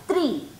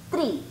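The two takes are said the same way.

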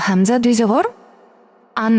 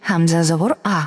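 First: "আন" closed on an n; final n sound. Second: Said in the usual way. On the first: Shown as a demonstration. Teacher models double zabar for learners, "আন" ending in n. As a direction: end "আন" with a clear Bengali dental n. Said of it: "Bangla দন্তন্যর মতো উচ্চারণ হবে". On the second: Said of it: "একটা জবর থাকলে তখন আমরা কি উচ্চারণ করেছি".

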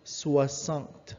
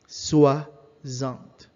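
First: Soixante with a clean s, swa-sant, no z; teacher corrects Soixante to a crisp s; soixante with s sound. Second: Soixante said with a buzzing z, swa-zant; teacher demos Soixante with the z in the middle; soixante with a Z sound. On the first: French teacher corrects Soixante to a clean s sound. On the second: French teacher models Soixante with a z sound. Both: Shown as a demonstration. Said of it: "let's remove the Z sound in the X".

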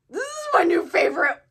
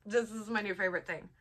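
First: Higher and louder, bursting with delight; excited. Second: Said in the usual way. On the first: Real, not acted. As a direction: exclaim it with thrilled emphasis. Gushing over a gift.

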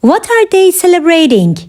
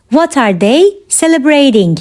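First: Said in the usual way. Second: Measured, separated phrases; careful teaching repeat. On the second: Shown as a demonstration. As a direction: pause after "they". Teacher repeats question for learners.

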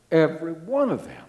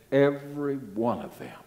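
First: ONE punched higher and louder; stress on ONE. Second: Said in the usual way. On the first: Real, not acted. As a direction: hit the word "one" hard for emphasis. Repeats line for emphasis.

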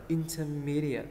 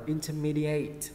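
First: "intermediate" as inter-MEE-dee-ut; correct "at" ending. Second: "intermediate" as inter-MEE-dee-ATE; wrong "ate" ending. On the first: Teacher corrects the learners, "intermediate" with short "at" ending. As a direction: end "intermediate" on a short weak "at". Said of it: "Mình sẽ đọc là intermediate". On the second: Teacher shows learners the mistake, "intermediate" mispronounced with "ate". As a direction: end "intermediate" on a long "ate". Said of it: "Mình không đọc là intermediate". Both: Shown as a demonstration.

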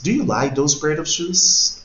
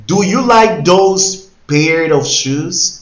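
First: Said in the usual way. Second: Very slow, loud and high, every word laid out; teacher modelling a question very slowly; slow model question. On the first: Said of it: "teacher repeats question". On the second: Shown as a demonstration. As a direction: spell the question out slowly for learners. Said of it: "teacher models question".

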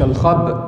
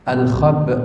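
First: الخب with the hamza wrongly made; wrong hamza stop. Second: الخب ending on a light, clear hamza; correct hamza stop. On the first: Teacher showing the stop to avoid. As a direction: say الخب the wrong way to show the error. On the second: Teacher showing the right way to stop on the hamza. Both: Shown as a demonstration. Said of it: "مش الخب".

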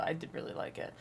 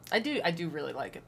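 First: Soft unvoiced whisper. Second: Said in the usual way. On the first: Real, not acted. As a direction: breathe it as a whisper. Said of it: "whispered repeat". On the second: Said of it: "repeats it as a whisper".

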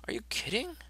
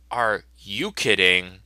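First: Pitched way up in disbelief; high incredulous squeak. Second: Slow drawn-out disbelief. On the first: Comic character asks in a high squeaky voice. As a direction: squeal it in cartoon shock. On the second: Comic character repeats it slowly in disbelief. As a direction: stretch it out in disbelief. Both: Acted.

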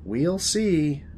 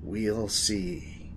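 First: Higher, drawn-out teasing answer; first take, at normal volume; knowing reply. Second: Slow, soft, ominous echo; hammy hushed foreboding; dramatic repeat. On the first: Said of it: "Did you just repeat yourself for dramatic effect?". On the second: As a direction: repeat it portentously, dropping the volume. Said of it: "repeat yourself for dramatic effect?". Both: Acted.

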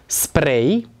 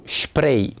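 First: Spray with a clean S, sprej; spray pronounced sprej; correct spray. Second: Spray with SH, shprej; spray pronounced shprej; wrong spray. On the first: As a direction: say spray with S, not SH. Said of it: "se pronunță spray". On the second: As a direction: say spray with SH at the start. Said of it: "pronunțată greșit spray". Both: Shown as a demonstration.

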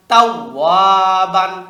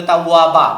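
First: "তাওয়াবান" slow, long waa, ending in n; full BAN ending. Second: "তাওয়াবা" ending on baa, no n; wrong stopped ending. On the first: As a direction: sound the final n of "তাওয়াবান". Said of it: "এখানে বানই বলতে হবে". ("তাওয়াবান"-এর শেষে বান স্পষ্ট করে পড়া) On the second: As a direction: drop the final n from "তাওয়াবা". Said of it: "বলবেন না". ("তাওয়াবা" শেষে নুন ছাড়া, ভুল পড়া) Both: Shown as a demonstration.

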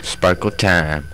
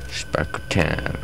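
First: Said in the usual way. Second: Slow hushed whisper. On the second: Pretend. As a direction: breathe it out slowly. Repeated phrase, whispered.

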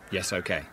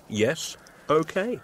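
First: Deadpan echo of Yes, okay, lower and dropping; 비꼬듯 무덤덤하게; flat mocking repeat. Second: Drawn-out breezy yes, okay; 느긋하고 자신만만하게; confident manager voice. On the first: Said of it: "So your key role in all this was saying". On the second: Acted. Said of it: "the way a manager says these things".

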